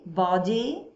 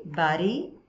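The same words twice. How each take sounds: First: "body" with a rounded o and a clear d, like bɔdi; British "body" demo; British-style body. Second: "body" with an ah vowel and a flapped d, like bari; American "body" demo; global American body. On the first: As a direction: say "body" the British way, open o and a real d. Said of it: "eles pronunciando body". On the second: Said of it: "eu gosto de uma pronúncia um pouco mais global". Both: Shown as a demonstration.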